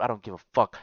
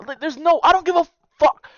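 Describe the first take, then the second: First: Said in the usual way. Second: High, loud furious shout. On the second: Real, not acted. Ranting about breaking sibling loyalty, high loud shout. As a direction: let it explode.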